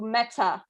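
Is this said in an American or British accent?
British. British accent, with the final r dropped. "in the U K, ... they don't pronounce the R that much"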